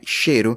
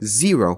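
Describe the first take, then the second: First: The name begins with an sh sound. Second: The name begins with a z sound. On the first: The speaker calls it wrong. "não é cheiro" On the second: The speaker calls it right. "X em inglês, quando é na frente de uma palavra, é pronunciado como Z"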